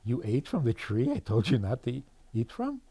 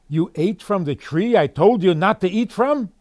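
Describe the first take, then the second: First: The question is asked in a gentle tone. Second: The question is asked in an angry tone.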